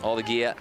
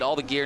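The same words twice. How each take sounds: First: It is said in a put-on Australian accent. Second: It is said in the speaker's ordinary accent. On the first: "There's my accent. I am Aussie" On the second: "That doesn't sound right when I say it"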